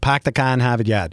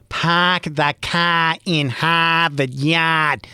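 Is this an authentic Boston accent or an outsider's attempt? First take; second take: authentic Boston; outsider's attempt. First: It is said in an authentic Boston accent. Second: It is said the way outsiders attempt it.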